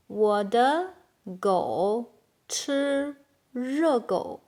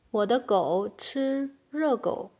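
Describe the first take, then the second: First: Slow, with gaps between words. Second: Said in the usual way. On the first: Shown as a demonstration. Teacher translating "my dog eats hot dog", slow word by word. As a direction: draw out each word for learners. Slow model, then natural take.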